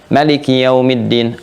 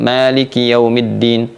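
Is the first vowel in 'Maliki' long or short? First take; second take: short; long. First: The first vowel of Maliki is kept short. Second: The first vowel of Maliki is drawn out long. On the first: The word means king of everything. "Kalau pakai misalnya Qalun dari Nafi' atau Warsh dari Nafi'" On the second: The word means owner of everything. "bacaannya panjang, kalau kita pakai hafaz dari Asim"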